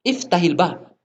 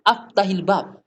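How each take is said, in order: First: The first word begins with an 'i' vowel. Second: The first word begins with an 'a' vowel. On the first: The speaker calls it right. "Mestinya iftah, iftahil bab" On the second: The speaker calls it wrong. "Dia bilang aftah, aftahil bab"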